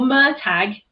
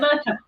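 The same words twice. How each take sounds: First: The name is said the unusual, official way. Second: The name is said the familiar, expected way. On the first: This is how the name is officially meant to be said. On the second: This is how readers usually say it.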